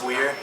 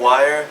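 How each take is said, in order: First: The name rhymes with fear. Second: The name rhymes with fire. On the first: The speaker calls it wrong. "everyone thinks it's Weir" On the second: The speaker calls it right. "My name is [name]"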